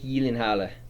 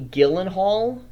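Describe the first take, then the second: First: The name is said with Swedish-style sounds. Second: The name is read with plain English sounds. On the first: The speaker calls it right. "Because it's Swedish, a different accent" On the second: The speaker calls it wrong. "what seems to be"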